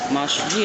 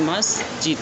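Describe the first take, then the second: First: The middle consonant is a 'sh' sound. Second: The middle consonant is an 's' sound. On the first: The speaker calls it wrong. "bukan masjid" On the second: The speaker calls it right. "bukan shin tetapi adalah sin"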